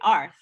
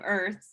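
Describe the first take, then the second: First: The vowel is an 'ar' sound. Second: The vowel is an 'er' sound. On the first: The speaker calls it wrong. "a Japanese person might want to say Arth" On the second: The speaker calls it right. "instead of Earth"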